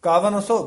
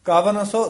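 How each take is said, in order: The two takes are said the same way.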